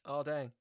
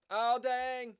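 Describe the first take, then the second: First: Said in the usual way. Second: Oh raised high, dang dropped; high mock dismay. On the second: Shown as a demonstration. Streamer groans at a blunder, high. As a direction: sing out the dismay.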